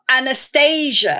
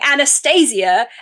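First: The name is said the American way. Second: The name is said the British way. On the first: The speaker calls it right. "and not Anastasia" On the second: The speaker calls it wrong. "the majority of people outside the US, and especially here in England, have been saying your name wrong"

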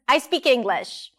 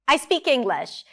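First: The intonation is lively and playful. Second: The same.

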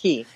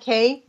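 First: The vowel sounds like the word key. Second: The vowel sounds like the letter K. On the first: The speaker calls it right. "it's pronounced Key" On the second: The speaker calls it wrong. "Looks like K"

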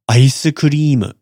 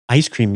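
First: It is said with Japanese katakana-style pronunciation. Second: It is said with English-style pronunciation. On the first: The speaker calls it right. "Maybe more like" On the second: The speaker calls it wrong. "Ice cream is not"

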